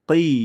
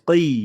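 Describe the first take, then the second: The two takes are said the same way.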